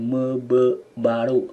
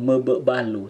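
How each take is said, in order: First: Mebe baru slow with a clear R; correct pronunciation. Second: Mebe balu with an L instead of the R; wrong pronunciation. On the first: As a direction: say mebe baru slowly, rolling the R. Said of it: "tapi mebe baru". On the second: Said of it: "bukan mebe balu". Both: Shown as a demonstration.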